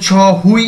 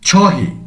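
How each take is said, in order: First: The word ends with a 'wi' vowel sound. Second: The word ends with an 'e' vowel sound. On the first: The speaker calls it wrong. "এখানে ছ হুই আমরা বলবো না" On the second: The speaker calls it right. "তখন শব্দটির শেষে উচ্চারণ হয় কেমন, এ"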